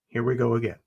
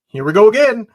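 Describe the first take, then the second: First: It sounds dreading and defeated. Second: It sounds eager and excited.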